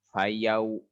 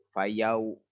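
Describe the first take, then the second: Both takes have the same delivery.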